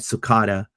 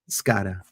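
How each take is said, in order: First: The name is said with a T sound. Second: The name is said without a T sound. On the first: The speaker calls it wrong. "super Americanized" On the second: The speaker calls it right. "no T"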